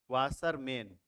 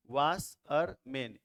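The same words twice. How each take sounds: First: Said in the usual way. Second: washerman in three slow beats, वाश, अर, मैन; split into syllables. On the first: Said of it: "जैसे मान लेते हैं". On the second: Shown as a demonstration. Teacher counting syllables for learners, washerman slowly in three parts. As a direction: say washerman piece by piece with small gaps. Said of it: "दो और ये तीसरा".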